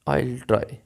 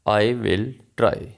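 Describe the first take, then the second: First: I and will merge into one syllable. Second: I and will are said as separate words.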